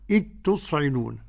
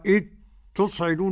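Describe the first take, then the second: First: The dh merges into one doubled t sound. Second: The dh is heard separately before the t. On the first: The speaker calls it right. "يصير النطق بحرف واحد مشدد وهو التاء" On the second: The speaker calls it wrong. "ولا نقرأ إذ تصعدون هكذا"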